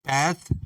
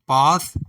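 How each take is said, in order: First: It is said with an American pronunciation. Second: It is said with a British pronunciation.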